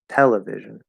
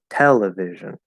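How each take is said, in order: First: The strongest stress is on the first syllable. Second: The same.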